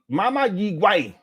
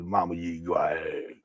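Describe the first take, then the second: First: It is said in an ordinary voice. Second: It is said in a deep voice. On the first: The speaker calls it right. "You got to say it that way" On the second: The speaker calls it wrong. "You can't say it with a deep voice"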